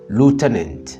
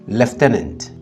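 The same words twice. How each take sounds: First: It is said with an American accent. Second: It is said with a British accent. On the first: "pour les Américains, on dit lieutenant" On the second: "pour les Britanniques, ils disent lieutenant"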